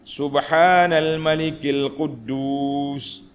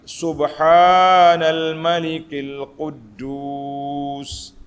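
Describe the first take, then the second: First: It is said at normal length. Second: It is said drawn out, longer.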